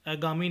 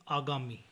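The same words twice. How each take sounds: First: आगामी opening on short a or e; mispronunciation. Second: Said in the usual way. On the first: Shown as a demonstration. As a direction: cut the first aa of आगामी short. (आगामी को अगामी बोलें) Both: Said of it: "नहीं".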